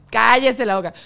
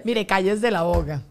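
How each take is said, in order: First: Louder playful shut-up; loud teasing hush; louder mock scolding. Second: Slow, drawn-out hush order; slow playful shush; slow mock scolding. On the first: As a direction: snap it out as a joking command. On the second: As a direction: lay it down slowly like a stern monk. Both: Joking mock monk scolding.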